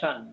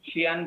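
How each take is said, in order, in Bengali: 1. শেষ অংশটি এক শব্দাংশে বলা হয়, shan। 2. শেষ অংশটি দুই শব্দাংশে বলা হয়, shi-an।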